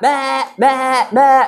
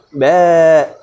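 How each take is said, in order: First: The bleats are quick and urgent. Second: The bleat is soft, weak and tender.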